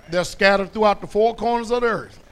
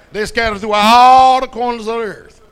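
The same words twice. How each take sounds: First: Said in the usual way. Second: Much louder second take; preacher belting out the line; shouted repeat. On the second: Acted. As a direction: throw it out to the back row.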